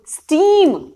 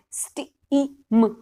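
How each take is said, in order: First: "steam" said quick, higher and louder; clear loud word. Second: "steam" stretched very slowly, sounds blended; slow blended word. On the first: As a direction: snap out "steam" firmly as the answer. ("Steam" ऊँची और ज़ोरदार आवाज़ में) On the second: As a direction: draw "steam" out as you blend it. ("Steam" बहुत धीरे खींचकर) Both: Shown as a demonstration. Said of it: "जोर से बच्चे को पढ़ानी है".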